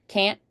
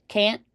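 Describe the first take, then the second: The two takes are said the same way.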